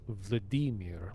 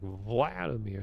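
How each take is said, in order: First: The middle syllable carries the stress. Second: The middle syllable does not carry the stress. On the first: This is how it is said in Russian. "in Russian, anyway, is pronounced Vladimir. Like they put emphasis on the e" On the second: This is how English speakers usually say it. "Meanwhile, we're like Vladimir"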